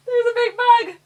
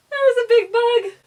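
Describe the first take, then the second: First: High, loud squeal, stress on bug; real alarm, much higher and louder; panicked squeal. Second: High, loud laughing squeal; real panicked bug alarm. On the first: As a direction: shriek it again at the bug. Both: Real, not acted. Sees a big bug.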